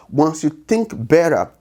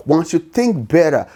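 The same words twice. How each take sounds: The two takes are said the same way.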